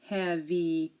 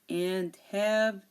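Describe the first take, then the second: First: An extra vowel sound is added at the end. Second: The word ends on the consonant sound. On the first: The speaker calls it wrong. "we don't say" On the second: The speaker calls it right. "the E here is silent"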